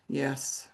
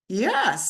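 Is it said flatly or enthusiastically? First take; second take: flatly; enthusiastically. First: It is said flatly, without enthusiasm. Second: It is said brightly, with enthusiasm.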